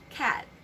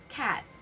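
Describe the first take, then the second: Both takes have the same delivery.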